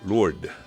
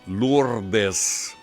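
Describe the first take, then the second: First: The final S is silent. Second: The final S is pronounced.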